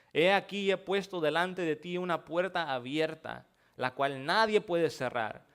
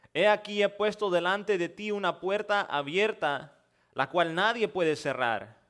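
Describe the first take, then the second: No difference in how they are said.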